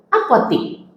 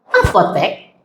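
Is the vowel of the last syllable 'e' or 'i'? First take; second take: i; e. First: The last syllable is said with an 'i' vowel. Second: The last syllable is said with an 'e' vowel. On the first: This is the everyday non-standard form. The speaker calls it wrong. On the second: This is the standard form. The speaker calls it right.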